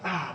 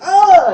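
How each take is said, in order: First: The cry is short and restrained. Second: The cry is big and exaggerated.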